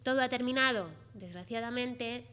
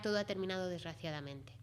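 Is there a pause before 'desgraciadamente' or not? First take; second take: pause; no pause. First: There is a pause before desgraciadamente. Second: There is no pause before desgraciadamente.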